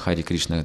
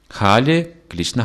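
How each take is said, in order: First: Hari is said with an r sound. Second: Hari is said with an l sound. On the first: "тут столько «Р»" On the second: "В Китае нет буквы «Р»"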